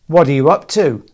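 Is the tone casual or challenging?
challenging. It sounds sharp and challenging, like an accusation. The listener is suspected of doing something wrong. "you can say it in a different way ... in a challenging way"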